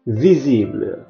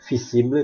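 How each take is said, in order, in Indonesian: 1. V dibaca dengan cara Prancis. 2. V dibaca dengan cara Indonesia. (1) "dalam bahasa Prancis jadi dibaca V" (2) "dalam bahasa Indonesia mungkin dibaca visible"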